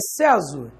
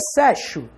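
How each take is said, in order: First: The x sounds like z. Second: The x sounds like sh. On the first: "Tem som de Z?" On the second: "Essa letra X aqui tem som de X?"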